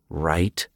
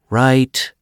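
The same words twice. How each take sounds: First: The word is muttered quietly. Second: The word is said somewhat louder. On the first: "he muttered" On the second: "Joe said a bit louder"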